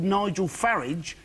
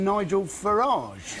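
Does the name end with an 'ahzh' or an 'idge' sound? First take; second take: idge; ahzh. First: The name ends with an 'idge' sound. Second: The name ends with an 'ahzh' sound. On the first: This is the ordinary people's way to say it. "if he was truly a man of the people, surely he'd be called" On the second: This is the posher way to say it. "rather than"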